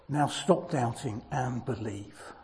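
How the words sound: It is said in a gentle, loving tone.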